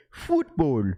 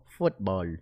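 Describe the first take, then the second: First: "Football" with a long oo vowel, bright and clipped at the end. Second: "Football" said low and soft with a foreign lilt, like his mom; a mild hint of mom's accent; imitating his mom. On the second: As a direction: sound like mom saying "Football". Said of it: "I sound like my mom". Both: Shown as a demonstration.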